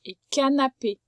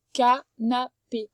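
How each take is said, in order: First: Said in the usual way. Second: Canapé drawn out slowly, each syllable clear; slow sounding out. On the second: Shown as a demonstration. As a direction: stretch canapé for a child to hear. (canapé, lentement, en détachant les syllabes)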